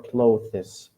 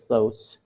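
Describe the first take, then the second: First: The th sound is clearly pronounced. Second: The th sound is dropped, like close. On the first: The speaker calls it wrong. "We do not say months or clothes" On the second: The speaker calls it right. "we simply say clothes or months"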